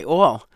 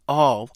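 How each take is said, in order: First: "all" as New York "awl"; New York pronunciation. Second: "all" with an open, unrounded ah-like vowel; self-conscious standard pronunciation. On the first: New Yorker showing her native accent, rounded "awl" for "all". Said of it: "because New Yorkers would say". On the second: New Yorker showing her trained speech, careful accentless "all". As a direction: carefully say "all" without New York rounding. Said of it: "it sounds very self-conscious to me". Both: Shown as a demonstration.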